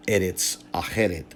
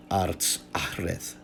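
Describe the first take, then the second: First: "Eretz Acheret" as E-rets a-KHE-ret; current pronunciation. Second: "Arts Achreth" said slowly as ARTS ACH-reth; ancient pronunciation. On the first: Lecturer showing what is now pronounced, current Hebrew form. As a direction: say "Eretz Acheret" with every vowel, ending in t. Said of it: "what is now pronounced as". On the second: Lecturer reconstructing what the Latin translator said, ancient pronunciation. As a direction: say "Arts Achreth" slowly, vowels dropped, final th. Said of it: "may have been pronounced in antiquity". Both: Shown as a demonstration.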